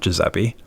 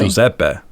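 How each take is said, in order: First: The name is said in an Americanized way. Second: The name is said in the Italian way. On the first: This is how the speaker says his own name. The speaker calls it wrong. "I don't pronounce my name correctly. It's not Giuseppe" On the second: This is how the family says it. The speaker calls it right. "It's really?"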